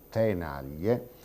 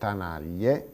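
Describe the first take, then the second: First: The first vowel differs from the stressed vowel. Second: The first vowel matches the stressed vowel. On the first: This is the standard form. "in luogo di" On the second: This is the regional Sardinian form. "L'armonizzazione totale è quella che sentiamo"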